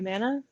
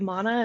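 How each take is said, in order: First: The first vowel is plain and short. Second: The first vowel is deep, long and rolling. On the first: "I do mana" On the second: "You do mana"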